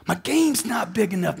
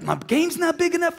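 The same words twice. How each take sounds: First: Said in the usual way. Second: "My game's not big enough" with "big" jumped much higher; pitched way up. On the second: Shown as a demonstration. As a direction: fling the word "big" up high in frustration. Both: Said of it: "repeats the line, then lifts it".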